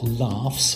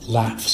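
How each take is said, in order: First: It is said in a posh accent. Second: It is said in a plain, everyday accent.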